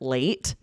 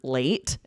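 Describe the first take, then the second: First: It is said like the English word late. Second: It is said like the English word late.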